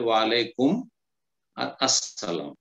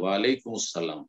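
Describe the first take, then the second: First: There is a pause between the two words. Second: The words run together without any pause. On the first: "ওয়াকফ করেন, ওয়াসল না করে থেমে যান" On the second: "আল সাইলেন্ট হয়ে তখন মুসালাম হয়ে যাবে"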